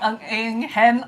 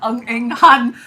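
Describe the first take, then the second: First: The last syllable has the vowel of hen. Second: The last syllable has the vowel of han. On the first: The speaker calls it right. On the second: The speaker calls it wrong.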